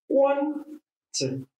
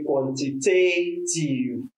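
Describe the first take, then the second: First: The stress falls on the first syllable. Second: The stress falls on a later syllable. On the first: The speaker calls it right. "Please let's say quantitative" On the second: The speaker calls it wrong. "this word is not actually quantitative"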